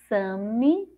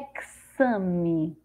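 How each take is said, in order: First: The x is pronounced as an s sound. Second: The x is pronounced as a ks sound. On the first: "com som de Si" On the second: "com som de Ceci"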